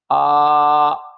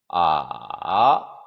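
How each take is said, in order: First: The pitch stays high and level. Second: The pitch dips low then rises. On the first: "일 성부터 사 성까지" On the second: "삼성"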